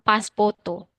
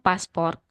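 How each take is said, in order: First: The word is said in a Japanese accent, ending 'poto'. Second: The word is said plainly, ending in r. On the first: "tapi mereka bilang paspoto" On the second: "bahasa Inggrisnya paspor"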